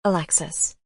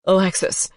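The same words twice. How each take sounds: First: Said in the usual way. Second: Louder, breathed-out name with a crack; breathy, cracking. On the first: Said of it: "Chapter eighteen". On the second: Acted. Dean calling his ex in the night, breathy and cracking. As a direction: sound relieved and near tears. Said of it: "Dean breathed out, his voice cracking".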